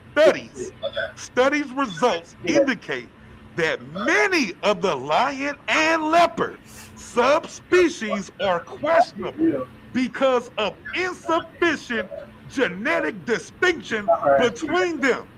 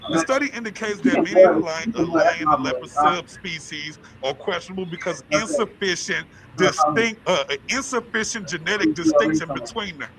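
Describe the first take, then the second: First: It is read at a slower pace. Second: It is read at a faster pace.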